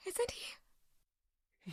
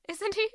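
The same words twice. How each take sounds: First: Breathless whispered plea; voiceless, desperate whisper. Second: Said in the usual way. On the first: Acted. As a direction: barely breathe the question. Girl repeats the question, breaking.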